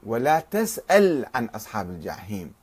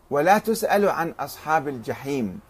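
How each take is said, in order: First: تسأل said tas'al; تسأل as "tas-'al", no final vowel; a vowel, silent ending. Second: تسأل said tus'alu; تسأل as passive "tus-'a-lu"; u vowels. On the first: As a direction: open تسأل with "ta", stop on the l. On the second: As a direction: open تسأل with "tu" and end on u. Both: Shown as a demonstration. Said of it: "واختلفوا كذلك في الحركات".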